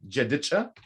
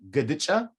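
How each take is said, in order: First: It starts with j and ends with cha. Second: It starts with g and ends with cha. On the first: "So I'm saying this right now" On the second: "You can also say"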